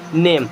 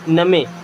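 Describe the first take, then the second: First: It is said as one syllable, 'naym'. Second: It is read letter by letter as 'na-me'. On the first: The speaker calls it right. "लेकिन ये actual में नेम है" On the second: The speaker calls it wrong. "अगर बारह खड़ी में जाएंगे तो इसे पढ़ेंगे नमे"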